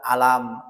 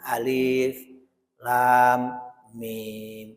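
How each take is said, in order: First: It is read as a single word. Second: It is read as three separate letter names. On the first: The speaker calls it wrong. "Tidak boleh dibaca" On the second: The speaker calls it right. "dibaca satu-satu"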